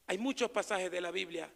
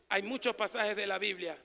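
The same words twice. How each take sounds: The two takes are said the same way.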